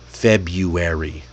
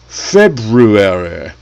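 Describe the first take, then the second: First: The R after 'Feb' is left out. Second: The R after 'Feb' is clearly pronounced. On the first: It is the ordinary everyday way. The speaker calls it right. "we all just say February" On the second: It sounds posh and overly formal. The speaker calls it wrong. "The only people who speak the second R are hoity-toity British lords with their noses in the air"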